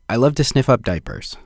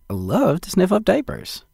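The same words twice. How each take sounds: First: It is said plainly, without much enthusiasm. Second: It is said with warm, wholesome enthusiasm. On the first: The speaker calls it wrong. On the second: The speaker calls it right.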